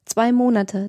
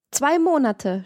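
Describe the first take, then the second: First: Said in the usual way. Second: Raised-pitch, mildly shocked exclamation; outcry. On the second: A narrator's reading. Admirer reacts to her two-month limit, mild outcry. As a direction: cry it out in understated dismay. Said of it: "schrie ich auf".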